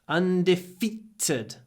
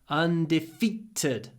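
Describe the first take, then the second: The two takes are said the same way.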